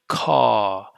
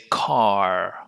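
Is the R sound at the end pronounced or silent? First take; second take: silent; pronounced. First: The final R sound is not pronounced. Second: The final R sound is clearly pronounced. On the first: "we don't really pronounce the R sound. We just say car" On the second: "with American accent, we're going to pronounce an R"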